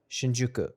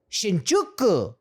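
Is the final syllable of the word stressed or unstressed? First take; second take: unstressed; stressed. First: The final syllable is not hit hard. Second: The final syllable is hit hard and stressed. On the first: The speaker calls it right. "just Shinjuku. You don't have to hit that like end part so hard" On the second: The speaker calls it wrong. "why people hit the like Shibuya, Shinjuku"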